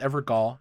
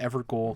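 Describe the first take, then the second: First: The last syllable sounds like gall. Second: The last syllable sounds like goal. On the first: "I thought it was Evergall" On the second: "I called it Evergoal"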